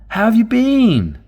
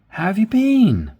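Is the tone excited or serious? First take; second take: excited; excited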